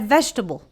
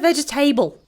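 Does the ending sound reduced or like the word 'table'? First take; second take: reduced; table. First: The ending is short and reduced, not 'table'. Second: The ending sounds like the full word 'table'. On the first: The speaker calls it right. "But this is a vegetable" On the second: The speaker calls it wrong. "I generally hear table in the end. Don't do it"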